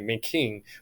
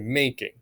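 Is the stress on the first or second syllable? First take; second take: second; first. First: The stress is on the second syllable. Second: The stress is on the first syllable. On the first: The speaker calls it wrong. "We don't say making" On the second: The speaker calls it right. "So the stressed is on the A, right? The unstressed is on the I"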